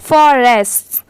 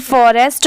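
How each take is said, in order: First: फॉरेस्ट as "forests", ending in a hissed s; final s sound. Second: फॉरेस्ट ending on the "t", singular; without final s. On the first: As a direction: add an s to the end of फॉरेस्ट. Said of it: "last में स की sound आएगी". (फॉरेस्ट्स, अंत में "स" की आवाज़) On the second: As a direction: stop फॉरेस्ट at "st", no s after it. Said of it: "सिर्फ फॉरेस्ट नहीं पढ़ेंगे". (फॉरेस्ट, अंत में "ट", "स" नहीं) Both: Shown as a demonstration.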